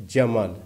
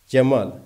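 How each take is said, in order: Both takes have the same delivery.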